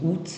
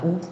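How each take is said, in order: First: The final T sound is pronounced. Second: The final T sound is silent. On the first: This is how it is said in Belgium. "en Belgique on dit août" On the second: This is how it is said in France. "et pas août"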